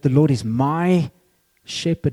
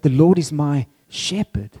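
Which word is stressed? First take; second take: my; shepherd. First: The stress falls on the word my. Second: The stress falls on the word shepherd. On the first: The relationship is deeply personal. "It's deeply personal" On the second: God is described as a shepherd. "God is being described as a shepherd"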